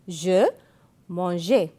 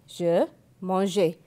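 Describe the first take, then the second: The two takes are said the same way.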